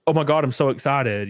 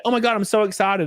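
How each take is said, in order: First: Said in the usual way. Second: Higher, airheaded mock excitement; mocking gushing commenter. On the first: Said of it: "it's like the, the caption". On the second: Mocking Facebook commenters fooled by fake poster, gushing. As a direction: parody the gullible fans. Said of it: "and everybody's like".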